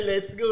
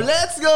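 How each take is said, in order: First: Softer, lower retelling of a shout; understated echo of a cheer; toned-down quoted cheer. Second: Higher-pitched rallying call; mock shout of encouragement; re-enacted ringside shout. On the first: Retold or imitated. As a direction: repeat the rallying call at low volume. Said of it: "Naalala ko to". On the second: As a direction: cheer the fighter on, half shouting. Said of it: "kaya sumisigaw na ako".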